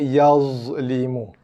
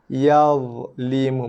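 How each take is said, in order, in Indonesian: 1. Konsonannya bunyi z biasa. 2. Konsonannya bunyi dh yang emfatik. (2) "So bunyi yang betulnya ialah yazlimu"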